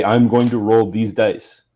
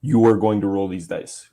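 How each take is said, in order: First: "I'm" slow and deliberate; stress on I'm. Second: "are" stressed, even tone. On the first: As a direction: lean on "I'm", slowly. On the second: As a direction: lean on "are" evenly. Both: Shown as a demonstration. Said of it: "makes me sound like a psycho robot".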